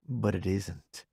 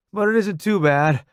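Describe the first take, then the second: First: Said in the usual way. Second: Higher, louder soldier voice; Roddy. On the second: Acted. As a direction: reassure through the pain.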